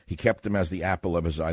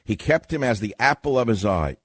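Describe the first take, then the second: First: Said in the usual way. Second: "He kept him as the apple of his eye" raised and punched; emphatic requote. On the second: Acted. Host proves the phrase is biblical, "apple of his eye" said emphatically. Repeats verse to prove its source.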